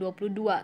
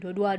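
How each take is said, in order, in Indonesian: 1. Setiap suku kata angka itu diucapkan dengan lengkap. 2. Angka itu diucapkan dengan cepat, suku katanya dipotong. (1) "bukan dua puluh dua" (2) "supaya cepat"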